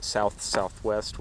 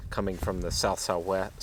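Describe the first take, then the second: First: "south southwest" repeated slowly, each word spaced out; slow clarifying repeat. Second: Said in the usual way. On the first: Real, not acted.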